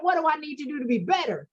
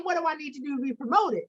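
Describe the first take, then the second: First: "better" lands as the weak wrong question; stress on better. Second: "promoted" gets the weight, fast; stress on promoted. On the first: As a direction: lead with "What", let "better" fall. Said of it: "She said". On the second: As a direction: lean on "promoted" as the right question. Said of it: "You didn't say". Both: Retold or imitated.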